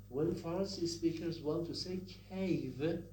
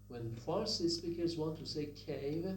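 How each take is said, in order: Both takes have the same delivery.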